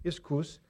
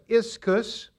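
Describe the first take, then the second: First: The word is said with a Greek-style pronunciation. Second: The word is said with an English-style pronunciation.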